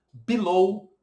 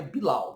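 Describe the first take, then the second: First: Teacher models below ending in ou; correct English below. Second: Bilau with the ending said like au; wrong bilau pronunciation. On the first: Teacher shows students how to say below properly, careful demo. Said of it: "ainda bem que below é assim". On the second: Teacher mocks the mistaken Brazilian way, joking wrong take. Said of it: "senão ficaria bilau". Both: Shown as a demonstration.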